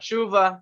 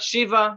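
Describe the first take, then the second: First: An oo vowel separates the sh and v. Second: An ee vowel separates the sh and v. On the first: "not shuva" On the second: "Not shiva"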